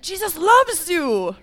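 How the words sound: It is said in an angry tone.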